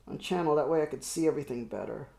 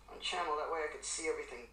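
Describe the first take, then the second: First: Said in the usual way. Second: Fast, much softer mutter; muttered under breath. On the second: Real, not acted. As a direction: mumble it quickly to yourself. Repeats line under breath.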